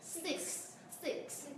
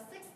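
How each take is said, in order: First: "six" with both K and S clearly sounded at the end; full final cluster. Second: "six" as learners often say it, with the final cluster simplified; common mispronunciation. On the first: Shown as a demonstration. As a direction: finish "six" on a crisp K plus S. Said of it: "mà nó là sixer". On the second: Retold or imitated. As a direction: imitate a learner's incomplete ending on "six". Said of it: "các bạn hay đọc là six đúng không".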